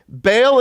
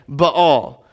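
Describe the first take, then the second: First: The name is said in the common everyday way. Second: The name is said in its original way. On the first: This is how most people say it. The speaker calls it wrong. "Baal is not how you pronounce it. It's how everyone pronounces it" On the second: This is how the name is really pronounced. The speaker calls it right. "It's actually Baal"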